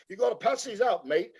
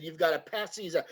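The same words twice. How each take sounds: First: John's accent repeated higher, lightly imitated. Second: John's accent, lightly imitated and kept soft; a light hint of John's accent, handing the job over. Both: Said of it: "in his accent".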